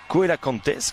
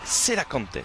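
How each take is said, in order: First: The word begins with a K sound. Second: The word begins with an S sound. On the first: The speaker calls it wrong. "comme j'ai pu le prononcer" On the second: The speaker calls it right. "ça se prononce Selacantes"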